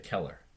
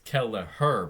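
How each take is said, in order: First: The name is said with two syllables. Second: The name is said with three syllables. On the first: The speaker calls it wrong. "they just say Keller" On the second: The speaker calls it right. "It's Kelleher"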